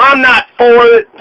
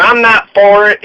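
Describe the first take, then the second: First: "I'm not for it" in a mild mock Southern twang, a bit louder. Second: Said in the usual way. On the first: Quoting Jack Conway at Fancy Farm in a light Southern twang. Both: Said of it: "with a nice southern twang".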